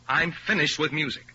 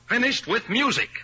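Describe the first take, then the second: First: Said in the usual way. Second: Higher, louder repeat, hammering it home; ringing final declaration; emphatic repeat. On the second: Acted. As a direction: slam the point down a second time. Repeats it with force.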